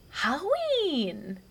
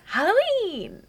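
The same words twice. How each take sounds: First: Put-on high, very slow toddler "Halloween"; imitating toddler. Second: Put-on high, louder toddler "Halloween"; imitating toddler. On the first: Mom imitates her toddler saying Halloween. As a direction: draw it out like a proud little girl. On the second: Mom imitates her toddler answering her. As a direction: squeal it like an excited little girl. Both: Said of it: "she goes".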